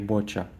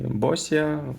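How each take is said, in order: First: The name is said with a 'ch' sound. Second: The name is said with an 's' sound. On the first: The speaker calls it right. "кажется правильнее все-таки Боча" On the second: The speaker calls it wrong. "как бы мне не хотелось произнести Босия"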